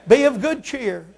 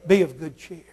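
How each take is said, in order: First: Shouted exhortation. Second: Said in the usual way. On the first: Shown as a demonstration. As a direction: bellow Be of good cheer.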